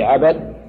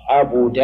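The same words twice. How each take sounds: First: عبد said ʕabad, a on the ba; fatha on ba. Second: عبد said ʕabuda, u on the ba; rounded u in the middle of عبد; damma on ba. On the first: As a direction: sound عبد as ʕa-BAD. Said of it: "تكون مفتوحة". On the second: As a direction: sound عبد as ʕa-BU-da. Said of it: "مضمومة". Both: Shown as a demonstration.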